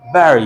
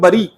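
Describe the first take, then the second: First: The first vowel sounds like 'e' in 'bet'. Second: The first vowel sounds like 'u' in 'but'. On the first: The speaker calls it right. "बोलेंगे" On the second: The speaker calls it wrong. "ऐसे नहीं बोलेंगे"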